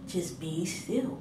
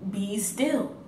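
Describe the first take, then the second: First: Just be still much softer and slow; soothing inner voice. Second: Said in the usual way. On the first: Retold or imitated. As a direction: hush the words just be still, calming and slow. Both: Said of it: "the Spirit just telling me".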